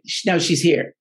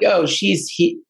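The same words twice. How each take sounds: First: Said in the usual way. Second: A hint of fake spiritual drama; mock theatrical medium. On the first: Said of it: "it was like". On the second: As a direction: play a cheesy clairvoyant delivering the news. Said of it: "it wasn't like some".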